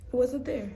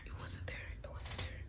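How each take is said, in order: First: Said in the usual way. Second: Hushed, voiceless repetition; whispered dismay over a loss. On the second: Retold or imitated. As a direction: whisper it in mock disbelief. Recounting the missing charger, repeated whispered.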